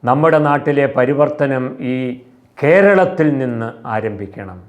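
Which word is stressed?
കേരളത്തിൽ. The emphasis falls on the word കേരളത്തിൽ.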